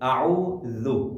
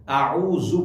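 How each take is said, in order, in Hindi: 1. व्यंजन एक नरम th की आवाज़ है, जीभ दांतों के बीच। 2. व्यंजन एक साधारण गूंजती हुई z की आवाज़ है। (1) "जबान दांतों से बिल्कुल बाहर आती है" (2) "आऊज़ु पढ़ते हैं, बिल्कुल गलत है"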